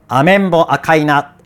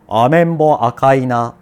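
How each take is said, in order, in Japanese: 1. 声は喉が締まって狭く聞こえる。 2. 声は喉が開いていて、あくびの途中のように聞こえる。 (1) "この喉がキャッと詰まった状態で" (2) "あくびをしたまま話すような"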